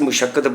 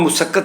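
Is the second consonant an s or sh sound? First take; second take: sh; s. First: The second consonant is an sh sound. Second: The second consonant is an s sound. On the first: The speaker calls it right. "ਅਸੀਂ ਮੁਸ਼ੱਕਤ ਪੜ੍ਹਨਾ ਹੈ" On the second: The speaker calls it wrong. "ਮੁਸੱਕਤ ਲਿਖਿਆ"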